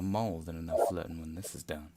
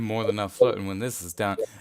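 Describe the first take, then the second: First: It is said in a put-on character voice. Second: It is said in the speaker's ordinary voice.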